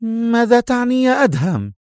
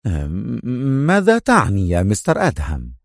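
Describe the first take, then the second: First: High-pitched woman's question; high, startled woman's voice; Sonia's character voice. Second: Mildly anxious question; a touch of worry; eager and worried. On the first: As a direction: ask sharply, pitched way up. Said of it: "على حين سألته سونيا". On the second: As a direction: ask with uneasy urgency. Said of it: "وسأله في لهفة وقلق". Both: Acted.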